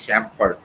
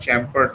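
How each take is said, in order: First: The word begins with an 'sh' sound. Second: The word begins with a 'ch' sound. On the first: The speaker calls it right. "এটা শ্যাম্পার্ড basically" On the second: The speaker calls it wrong. "উচ্চারণটা চ্যাম্পার্ড নয়"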